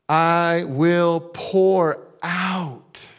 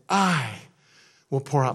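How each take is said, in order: First: The word "pour" carries the main stress. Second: The word "I" carries the main stress. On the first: It comes in abundance, not in small amounts. "this isn't like little measures, little sprinkles" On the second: God alone is the one who does it. "Who's going to do it? God"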